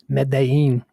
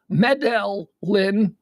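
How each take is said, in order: First: The name is said with a non-American pronunciation. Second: The name is said with an American pronunciation. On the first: The speaker calls it right. "but it's Medellin" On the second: The speaker calls it wrong. "You you want to pronounce that Medell, Medellin, because we're Americans"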